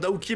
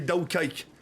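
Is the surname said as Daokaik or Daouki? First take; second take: Daouki; Daokaik. First: The name is said as Daouki. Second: The name is said as Daokaik. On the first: The speaker calls it right. "Tu voulais dire Daouki, mon nom de famille" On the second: The speaker calls it wrong. "Le mec, il m'a appelé Daokaik"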